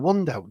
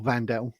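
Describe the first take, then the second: First: The name begins with a W sound. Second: The name begins with a V sound. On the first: The speaker calls it wrong. "I keep saying it wrong" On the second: The speaker calls it right. "He said it's Vandel"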